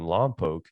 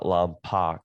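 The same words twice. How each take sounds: First: The name is not pronounced the way it's spelled. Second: The name is pronounced the way it's spelled. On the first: The speaker calls it right. "in Lompoc" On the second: The speaker calls it wrong. "not Lompoc, if you see it"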